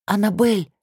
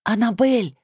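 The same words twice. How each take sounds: First: Hoarse whispered call; raspy whisper. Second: Hoarse whispered call, rising panic; raspy whisper. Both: A narrator's reading. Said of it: "зову хриплым шёпотом".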